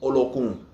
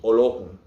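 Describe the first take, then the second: No difference in how they are said.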